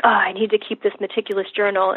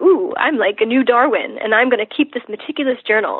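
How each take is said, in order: First: Burdened chore. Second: Playful mock excitement with a swooping Ooh. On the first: Acted. Patient voicing the overkill of meticulous journaling, burdened. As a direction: voice it as a dutiful burden. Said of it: "So instead of being like". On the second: Patient reframing journaling as playing new Darwin, playful. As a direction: treat the chore as a fun adventure. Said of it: "I try to view it as fun".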